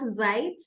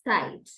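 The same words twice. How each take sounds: First: The word begins without a ts sound. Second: The word begins with a ts sound. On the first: The speaker calls it wrong. "not Zeit" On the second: The speaker calls it right. "rather Zeit"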